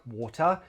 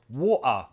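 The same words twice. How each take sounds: First: The middle t is a clear t sound. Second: The middle t is a glottal stop.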